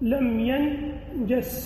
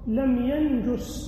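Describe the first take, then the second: First: The vowel after the j sound is a. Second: The vowel after the j sound is u. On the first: "الأول بفتح الجيم" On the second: "ويجوز الضم"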